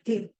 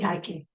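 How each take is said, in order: First: The name is said like tee-kee. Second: The name is said like tie-kee. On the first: "The Greek word is tiki" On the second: "I'll say Tyche"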